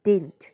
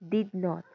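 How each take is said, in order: First: It is one short word with the middle d dropped. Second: It is said as two full separate words.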